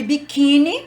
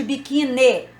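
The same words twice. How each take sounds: First: "biquíni" terminé par un i léger, accent sur "quí"; variante en I. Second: "biquíni" said with a final e, as bi-ki-NE; variante en E. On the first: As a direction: say "biquíni" ending in an unstressed ee sound. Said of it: "cuidado que tem a variante". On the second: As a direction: end "biquíni" on an e sound instead of i. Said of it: "cuidado que tem a variante biquíni". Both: Shown as a demonstration.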